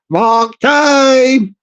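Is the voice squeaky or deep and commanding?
squeaky. It is said in a squeaky voice.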